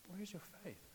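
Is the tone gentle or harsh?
gentle. It is said in a kind, gentle tone.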